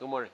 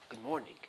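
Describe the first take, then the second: First: The greeting is said quickly and offhandedly. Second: The greeting is said warmly and attentively. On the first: The greeter is only going through the motions. The speaker calls it wrong. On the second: The greeter is paying real attention to the person. The speaker calls it right. "he focuses on you. He looks at your face and he says"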